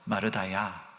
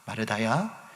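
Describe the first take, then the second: First: The name is said gently, in a kind voice. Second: The name is said gently, in a kind voice.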